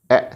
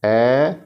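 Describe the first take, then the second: First: ए said very short; quick ए with no stretch; short vowel. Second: ए held long and loud; long, sustained ए; stretched vowel. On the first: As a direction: stop ए almost at once. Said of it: "कितना नहीं खींचना है". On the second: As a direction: draw ए out for learners. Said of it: "कितना खींचना है, कितना नहीं खींचना है". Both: Shown as a demonstration.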